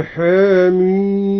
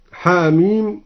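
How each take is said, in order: First: Slow chant, vowel of ha in حاميم tilted toward e; حاميم with half-tilted first vowel and long held ending; taqlil. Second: Said in the usual way. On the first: Shown as a demonstration. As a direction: draw out حاميم as hè-miiim. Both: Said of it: "قلل الحاء هكذا".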